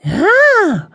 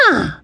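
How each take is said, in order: First: High, loud delighted ah; admiring. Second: Touched. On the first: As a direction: gasp with delight at the food. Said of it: "admiring the fine cooking". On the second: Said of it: "appreciatively touched by their kindness". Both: Acted.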